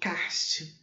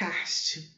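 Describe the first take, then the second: First: The word is said with Brazilian Portuguese pronunciation. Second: The word is said with Brazilian Portuguese pronunciation.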